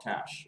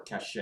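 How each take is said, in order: First: Said in the usual way. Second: "cache" said as cash-AY; two-syllable pronunciation. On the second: Shown as a demonstration. Computer user giving the other name for cache, two-syllable cash-ay. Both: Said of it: "It's called cache or cache".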